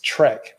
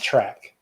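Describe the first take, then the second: First: The vowel is the 'e' of 'bed'. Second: The vowel is the 'a' of 'back'. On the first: The speaker calls it right. "it's Trek and not track" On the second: The speaker calls it wrong. "because I'm lazy"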